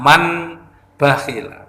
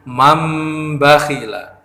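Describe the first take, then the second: First: An n sound comes before the b. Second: An m sound comes before the b. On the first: The speaker calls it wrong. "Tidak boleh dibaca man bakhila" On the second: The speaker calls it right. "tapi mam bakhila"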